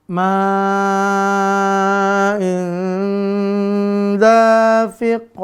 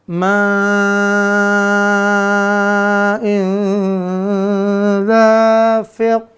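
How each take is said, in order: The two takes are said the same way.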